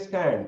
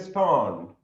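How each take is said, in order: First: The vowel is a flat 'a' sound. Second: The vowel is a broad 'ah' sound. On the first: This is how people in Sri Lanka say it. "We say stand, right?" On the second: This is how British speakers say it. "If British is saying, they will say stand"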